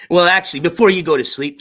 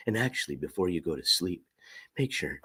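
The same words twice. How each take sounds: First: Sudden loud, back to full voice; bursting out of the hush; loud again. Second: Deep soft murmur, lulling; low ASMR voice. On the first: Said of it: "I just woke you up". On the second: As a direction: hush it low for sleepy listeners. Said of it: "I don't have the best A S M R voice". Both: Shown as a demonstration.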